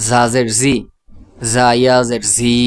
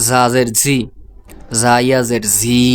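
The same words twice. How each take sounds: The two takes are said the same way.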